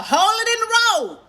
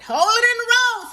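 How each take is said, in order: First: High, loud stern order from grandma; grandma's stern order. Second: Same high, loud warning again; grandma's stern order. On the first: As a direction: call it out sharply like a grandma in the passenger seat. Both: Retold or imitated. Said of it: "That's how she'd say it".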